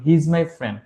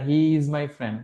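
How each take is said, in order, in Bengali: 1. 'He is' এক সিলেবলে সংক্ষিপ্ত হয়ে 'he's' হয়। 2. 'He is' দুটি পূর্ণ শব্দ হিসেবে বলা হয়। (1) "স্পিকিং করার সময় সবসময় শর্ট ফর্ম ইউজ করবেন" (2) "বলবেন না"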